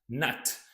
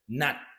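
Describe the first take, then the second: First: The final t is released with a puff of air. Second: The final t is cut off without release. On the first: "you're doing this aspiration, t, t, not" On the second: "You don't have to aspirate the t sound... you just stop"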